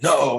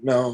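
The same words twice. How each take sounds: First: It is said in a firm, sharp tone. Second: It is said in a very soft tone. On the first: It is meant for a child who understands words. The speaker calls it wrong. "it's not like no, how you would say it to a child who actually understands the sound" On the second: It is meant for a baby. The speaker calls it right. "you say it with a very soft tone"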